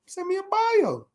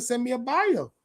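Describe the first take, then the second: First: Much higher and slow; high slow teasing repeat of the request; high drawn-out mock. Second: Said in the usual way. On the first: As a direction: stretch it out high like a mock demand.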